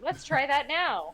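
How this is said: It is said with lively enthusiasm.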